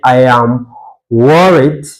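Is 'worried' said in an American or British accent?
British. British accent, with an O vowel in worried. "when British people say this word they say"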